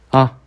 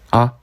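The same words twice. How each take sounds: Both takes have the same delivery.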